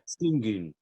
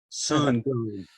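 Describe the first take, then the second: First: The name is said with a Turkish pronunciation. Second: The name is said with an American pronunciation. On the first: "I believe is how you pronounce it" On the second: "You want to say it in American"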